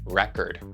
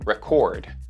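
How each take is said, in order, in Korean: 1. 강세는 첫 번째 음절에 있어요. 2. 강세는 두 번째 음절에 있어요. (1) "첫 음절에 강세를 두면" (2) "두 번째 음절에 강세를 두면"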